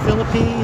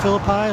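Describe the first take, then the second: First: It uses the local West Virginia pronunciation. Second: It uses the usual biblical pronunciation. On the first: This is how locals say the town's name. "this is the correct pronunciation around here" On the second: This is how the biblical name is usually said. "like the usual biblical pronunciation"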